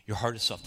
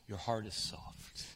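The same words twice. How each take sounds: First: Said in the usual way. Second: A hush on "soft". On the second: Acted. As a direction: say "Your heart is soft" softer and slowly, almost breathed. Gentle pastoral emphasis.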